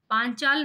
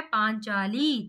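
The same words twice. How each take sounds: First: "पांचाल" ending on l, no final vowel; wrong form. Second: "पांचाली" with a long, held final ee; slow "पांचाली", leaning on the last ee; correct form. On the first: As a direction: say "पांचाल" stopping at the l. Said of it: "पांचाल नहीं क्या है". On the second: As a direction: stretch the ending of "पांचाली" slowly. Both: Shown as a demonstration.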